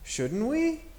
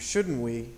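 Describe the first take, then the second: First: The pitch rises at the end like a question. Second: The pitch stays level, neither rising nor falling.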